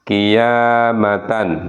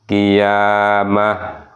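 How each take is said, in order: First: The word ends with a full 'tan' syllable. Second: The word ends with a silent-vowel 'h' sound.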